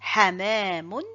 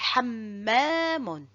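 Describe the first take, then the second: First: The m sound is short and single. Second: The m sound is held long and doubled.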